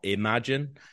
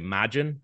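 First: The word is said in a standard pronunciation. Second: The word is said in a local, reduced pronunciation. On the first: This is not how people at home say it. "not imagine" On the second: This is how people at home say it. "where I'm from, people say imagine"

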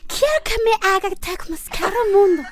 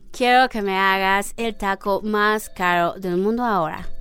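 First: It is said in a Croatian accent. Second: It is said in an American gringo accent.

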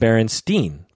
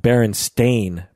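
First: The last syllable sounds like 'steen'. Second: The last syllable rhymes with 'rain'. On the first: This is the form everyone used as children. "We all called them Berenstein bears" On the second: This is the spelled form nobody used as children. "I never called them Berenstain bears"

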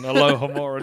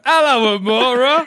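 First: It is said as one smooth word. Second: It is said as 'hello' then 'Amora'. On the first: The speaker calls it right. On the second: The speaker calls it wrong.

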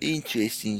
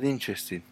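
First: It is said in an imitated, put-on accent. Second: It is said in the speaker's ordinary accent.

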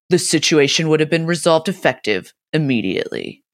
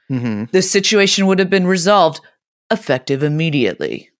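First: There is a break right before 'immediately'. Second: It flows into 'immediately' without a break. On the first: The speaker calls it wrong. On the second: The speaker calls it right.

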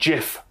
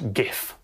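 First: The word begins with a soft J sound. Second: The word begins with a hard G sound. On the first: The speaker calls it right. "argues that it should be GIF" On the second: The speaker calls it wrong. "GIF with a hard G"

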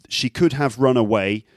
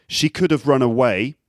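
No difference in how they are said.

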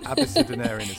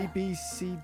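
First: The start is blended smoothly into one flowing word. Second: The start sounds like separate letters A-B-C-D. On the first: The speaker calls it right. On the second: The speaker calls it wrong.

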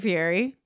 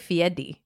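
First: The middle consonant is an English r. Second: The middle consonant sounds like a d. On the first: This is how most people say it. The speaker calls it wrong. "how we all are about Fieri" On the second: This is the intended pronunciation. The speaker calls it right. "You're supposed to say Fiedi"

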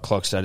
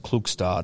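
First: The first vowel sounds like 'lock'. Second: The first vowel sounds like 'look'. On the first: The speaker calls it wrong. "Klokstad is not Klokstad" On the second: The speaker calls it right. "it's Klukstad"

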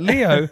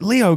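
First: It is said in an English accent. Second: It is said in an American accent. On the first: The speaker calls it right. "I'll just do an English accent" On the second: The speaker calls it wrong. "I don't know why I did an American accent"

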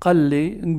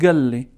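First: The word begins with a deep q sound. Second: The word begins with a hard g sound. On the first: This is the usual form outside Gaza. "instead of the qa" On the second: This is how people in Gaza say it. "That part of Gaza, they say instead of the qa, ga"

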